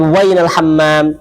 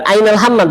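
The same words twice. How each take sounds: First: Slow "wainal hammam", stressing the added w- in "wainal"; teacher gives the dialect form slowly; colloquial Arabic. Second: "ainal hammam" with no w, standard form; teacher contrasts formal with dialect; formal Arabic. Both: Shown as a demonstration.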